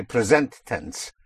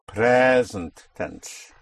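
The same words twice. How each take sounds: First: "present" stressed on SENT; wrong stress demo. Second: "present" with PRE drawn out slowly; corrected stress. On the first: Teacher showing what you will not say, "present" stressed on SENT. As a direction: move the stress to the second syllable of "present". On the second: Teacher showing what to say instead, "present" stressed long on PRE. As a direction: stretch and stress the first syllable of "present". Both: Shown as a demonstration. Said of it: "You will not say present tense".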